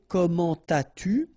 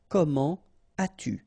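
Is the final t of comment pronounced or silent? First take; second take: pronounced; silent. First: The t of comment links into as-tu. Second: The t of comment stays silent before as-tu. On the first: The speaker calls it wrong. "So you don't say" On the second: The speaker calls it right. "nothing here"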